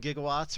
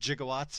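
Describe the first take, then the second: First: The word is said with its ordinary pronunciation. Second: The word is said with an imitated, unusual pronunciation.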